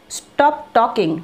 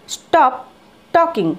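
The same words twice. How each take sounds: First: Very slow "Stop talking"; slow model phrase. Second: Brisk higher command. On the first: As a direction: drag "Stop talking" out for learners. (ধীরে "Stop talking") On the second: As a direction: snap out "stop talking". (উঁচু গলায় "stop talking") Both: Shown as a demonstration. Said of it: "তো just বলো".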